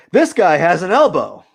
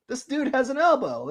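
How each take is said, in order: First: Said in the usual way. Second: Much higher, playful squeaky voice; mock high squeak. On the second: Artist joking to viewers about his sketch, silly high voice. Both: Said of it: "playful repeat of the line".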